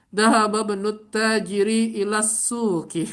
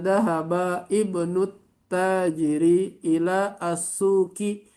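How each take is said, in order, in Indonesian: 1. Kata-katanya tersambung, dengan huruf vokal di awal dihilangkan. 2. Kata-katanya dipisah, dengan huruf vokal di awal tetap dibaca. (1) "dibaca semua tanpa ini di sini tidak diba hamzatul wasalnya tidak di dibaca" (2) "itu kalau bacanya dipisah pi pisah"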